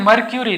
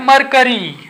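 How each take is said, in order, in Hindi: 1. बीच के अक्षर में 'kyoo' की आवाज़ है। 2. बीच के अक्षर में सादा 'kuh' की आवाज़ है। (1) "अब ये मरक्यूरी नहीं" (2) "यह है मरकरी"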